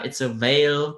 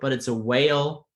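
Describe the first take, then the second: First: The word begins with a V sound. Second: The word begins with a W sound. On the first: The speaker calls it wrong. "it took me probably half a year to not say" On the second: The speaker calls it right.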